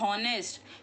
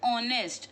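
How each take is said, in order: First: The word begins with an audible h sound. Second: The word begins directly with the vowel sound. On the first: The speaker calls it wrong. "We don't say honest" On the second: The speaker calls it right. "here we ignore the H sound. We say honest"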